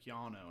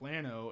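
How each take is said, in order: First: It is said the Lubbock way. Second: It is said the Central Texas way.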